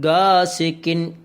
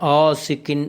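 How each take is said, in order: First: It begins with a plain hard g. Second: It begins with a glottal catch, no g. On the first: "ഗായാണ് ഉച്ചരിക്കാറുള്ളത്" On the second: "അതൊക്കെ തെറ്റാണ്"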